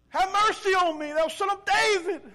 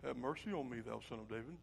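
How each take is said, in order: First: Loud, high-pitched plea; crying out. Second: Very low, soft murmur; meek, silent-worship plea. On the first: Blind man calling to Jesus despite the hushing, desperate cry. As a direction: holler over those hushing you. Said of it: "he called out to him for help". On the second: Blind man trying to keep church quiet, meek murmur. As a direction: say it timidly under your breath. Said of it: "We wanna be silent in our worship". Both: Acted.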